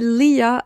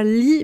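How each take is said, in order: First: The name is said as two syllables. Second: The name is said as one syllable. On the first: The speaker calls it right. "mais on dit Leah" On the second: The speaker calls it wrong. "on dit pas Lee"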